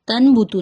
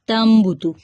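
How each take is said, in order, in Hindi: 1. b से पहले की आवाज़ n है। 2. b से पहले की आवाज़ m है। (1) "तन बुतू नहीं पढ़ेंगे" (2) "बल्कि पढ़ेंगे तम बुतू"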